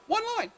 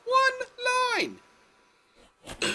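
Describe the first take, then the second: First: High, loud, fed-up cry; exasperated shout. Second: Even higher, louder, at the top of the voice; peak exasperated shout. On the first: Vlogger ranting at Star Wars prequels, exasperated shout. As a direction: throw the words up in frustration. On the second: Vlogger's final outburst at the prequels, topmost shout. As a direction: let it explode at full volume. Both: Real, not acted.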